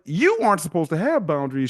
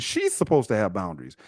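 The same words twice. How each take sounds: First: YOU hit high, the rest falling away; stress on YOU. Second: SHE'S leaned on, then a falling, softer finish; stress on SHE'S. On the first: Challenging church teaching on boundaries, stress on YOU. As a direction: punch the word "you" in disbelief. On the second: Challenging church teaching on boundaries, stress on SHE'S. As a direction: lean on "She's" as the contrast. Contrasts she with you. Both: Real, not acted.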